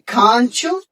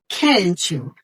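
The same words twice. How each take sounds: First: It is said in a British English accent. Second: It is said in an American English accent. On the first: "If you want to speak British English, you will say" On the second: "if you want to speak American English, you will say"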